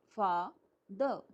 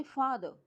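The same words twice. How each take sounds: First: फादर broken slowly into फा, द; split in two. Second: Said in the usual way. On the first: Shown as a demonstration. Teacher showing students two parts, slow syllable by syllable. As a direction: say फा and द as separate syllables. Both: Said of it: "two part है".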